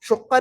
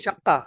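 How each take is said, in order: First: The first vowel is an 'u' sound. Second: The first vowel is an 'a' sound. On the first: The speaker calls it wrong. "शुक्का नहीं" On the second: The speaker calls it right. "नहीं शक्का"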